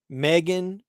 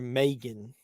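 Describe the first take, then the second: First: The first vowel sounds like 'ee'. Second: The first vowel sounds like 'ay'. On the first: "with the E sound" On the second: "or the A sound"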